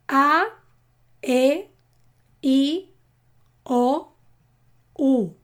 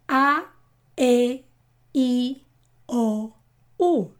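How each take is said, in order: First: The vowels are said a little faster. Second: The vowels are said faster again. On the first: "Un poco más rápido" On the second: "Y ahora un poco más rápido"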